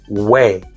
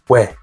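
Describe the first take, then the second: First: The vowel is long with an added y glide. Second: The vowel is one short syllable without glide. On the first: The speaker calls it wrong. "like English word way, by adding y" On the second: The speaker calls it right. "just one syllable, simple"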